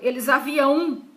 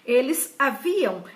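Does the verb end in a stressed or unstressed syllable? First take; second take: stressed; unstressed. First: The verb ends in a stressed 'ão' syllable. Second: The verb ends in an unstressed nasal syllable. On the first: The speaker calls it wrong. "Como limão, campeão, certo? Que é ão" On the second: The speaker calls it right. "é A M, não é a O tio"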